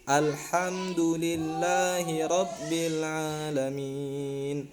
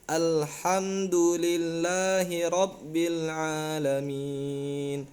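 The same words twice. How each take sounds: Both takes have the same delivery.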